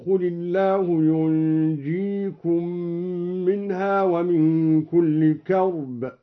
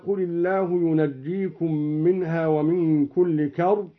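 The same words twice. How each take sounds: First: ينجيكم as "yunjikum", vowelless nun and single j; slow recitation with ينجيكم as "yunjikum"; light jim. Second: Said in the usual way. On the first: Shown as a demonstration. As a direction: hum the nun of ينجيكم, then a light undoubled j. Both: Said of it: "بإسكان النون وتخفيف الجيم".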